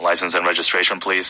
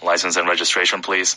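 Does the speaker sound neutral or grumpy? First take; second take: grumpy; grumpy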